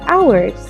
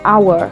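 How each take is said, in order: First: The word ends with a final S sound. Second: The word ends without a final S sound. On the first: The speaker calls it right. "but there's hours" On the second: The speaker calls it wrong. "you said they work very long hour"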